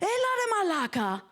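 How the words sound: It sounds surprised and impressed.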